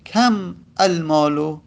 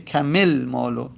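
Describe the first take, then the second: First: The words are said without a linking vowel. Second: An 'i' vowel links the two words. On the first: The speaker calls it wrong. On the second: The speaker calls it right.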